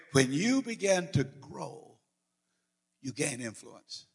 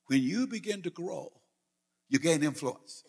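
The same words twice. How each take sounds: First: "When you begin to grow" drawn out slowly, "you gain influence" dropping soft; slow emphatic repeat. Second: Said in the usual way. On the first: Shown as a demonstration. Preacher repeating the key line to the congregation, slow and emphatic. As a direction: spell it out slowly so it sinks in. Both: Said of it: "Are you hearing something here?".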